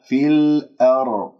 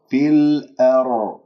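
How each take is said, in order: Both takes have the same delivery.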